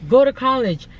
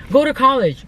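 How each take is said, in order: Both takes have the same delivery.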